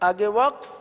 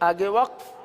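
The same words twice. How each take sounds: Both takes have the same delivery.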